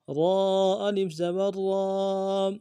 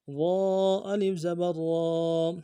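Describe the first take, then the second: First: را heavy with the aa held one count. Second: را said full and heavy; heavy را with long aa. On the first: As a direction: thicken را and stretch aa. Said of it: "موٹا کرنا ہے را کو". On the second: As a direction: give را a thick rolled r. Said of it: "را موٹا حرف ہے". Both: Shown as a demonstration.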